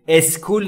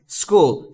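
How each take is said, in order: First: An extra vowel is added before the s. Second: The word starts directly with the s. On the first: The speaker calls it wrong. "اسکول نیست" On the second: The speaker calls it right. "دوستان تلفظش رو دقت بکنید"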